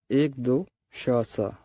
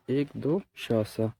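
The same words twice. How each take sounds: The two takes are said the same way.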